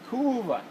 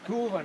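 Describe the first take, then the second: First: Cuba said "KYOO-ba" with a hard English K and long U, pitched up; the gringo way of saying Cuba; wrong pronunciation. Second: The way Cubans say Cuba; Spanish pronunciation. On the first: Telling his band how not to say Cuba, "KYOO-ba" the wrong way. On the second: Telling his band the right way, Cuba as "KOO-va" in Spanish. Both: Shown as a demonstration. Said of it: "Cuba, not Cuba".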